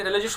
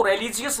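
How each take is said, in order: First: "रिलीजियस" as ri-li-jush; short jush ending on "रिलीजियस", three syllables; correct pronunciation. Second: "रिलीजियस" as re-li-ji-yus, four syllables; mispronounced example. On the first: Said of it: "रिलीजियस होता है". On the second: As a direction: spell out the ending of "रिलीजियस" as ji-yus. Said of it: "इसको रिलीजियस नहीं बोलते". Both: Shown as a demonstration.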